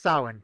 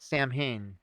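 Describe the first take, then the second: First: It is pronounced differently from its spelling. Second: It is pronounced just as it is spelled. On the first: The speaker calls it right. "but it is Samhain" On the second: The speaker calls it wrong. "it is not Samhain"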